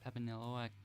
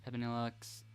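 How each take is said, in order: First: EXE is said as the single sound 'ex'. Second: EXE is said as the single sound 'ex'.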